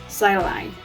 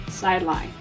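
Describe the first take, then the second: Both takes have the same delivery.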